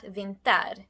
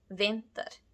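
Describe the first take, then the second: First: Vinter with the ending -ter stressed, long and louder; wrong stress. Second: Vinter with VIN long and louder, -ter short and weak; correct stress. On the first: Teacher showing learners the wrong stress on the ending. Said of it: "It's not vinter". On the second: Teacher showing learners the right stress on the first syllable. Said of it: "vin, is louder and longer than the ending". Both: Shown as a demonstration.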